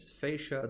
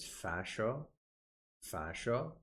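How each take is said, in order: First: "fascia" with an AY sound, FAY-sha; "fascia" the English way, first vowel as in face; English pronunciation. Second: "fascia" with a short A, FASH-o; "fascia" the American way, first vowel as in fashion; American pronunciation. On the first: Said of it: "the English pronunciation is". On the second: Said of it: "the American pronunciation is". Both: Shown as a demonstration.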